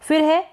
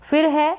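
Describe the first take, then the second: No difference in how they are said.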